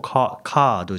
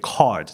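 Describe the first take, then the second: First: It is said with a Japanese-style pronunciation. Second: It is said with an English-style pronunciation. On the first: The speaker calls it wrong. "カードじゃなくて" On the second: The speaker calls it right. "カードっていう"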